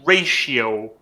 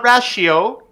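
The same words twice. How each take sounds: First: The first vowel sounds like in 'ray'. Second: The first vowel sounds like in 'rat'. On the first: The speaker calls it right. "It's a ratio" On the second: The speaker calls it wrong. "like you said a rat. You know, like ah sound"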